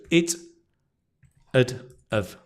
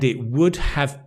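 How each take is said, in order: First: The words are reduced with a schwa. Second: Each word is said in full.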